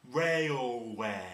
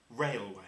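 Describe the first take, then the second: First: Railway drawn out long and louder, chin dropping; stretched railway. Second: Said in the usual way. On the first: Shown as a demonstration. Teacher showing the wailing train sound, stretched and louder. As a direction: wail the word Railway like a train. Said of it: "Now say it like this. Watch my chin". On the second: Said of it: "just say the word railway".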